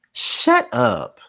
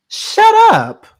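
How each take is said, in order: First: Mock yell. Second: Much higher, loud shriek of shut up; shout. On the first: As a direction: bark it at the screen. Repeated shut up at Drew. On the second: Host screaming at Drew through the screen, high and loud. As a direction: scream it, fed up beyond words. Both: Real, not acted.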